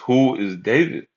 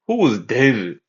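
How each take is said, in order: First: It is read plainly in his own voice. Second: It is said in an imitation of Nabal.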